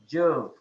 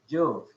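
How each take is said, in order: No difference in how they are said.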